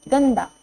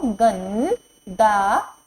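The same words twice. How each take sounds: First: Said in the usual way. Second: गंदा stretched slowly with nasal ं held; slow teacher drill; slow sounding out. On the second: Shown as a demonstration. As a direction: drawl गंदा syllable by syllable, rise at end. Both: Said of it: "ग पर अंग की मात्रा लगाएंगे".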